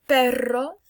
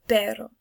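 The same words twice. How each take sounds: First: Perro with a trilled double R; perro, strong trill; rolled R. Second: Pero with a single quick tap; pero, one light flick of the tongue; pero, short tap R; tapped R. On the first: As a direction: roll the RR in perro. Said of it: "This one you roll your R". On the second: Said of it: "they're pronounced differently". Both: Shown as a demonstration.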